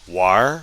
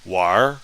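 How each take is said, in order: First: The word ends with an R sound. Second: The word ends with an R sound.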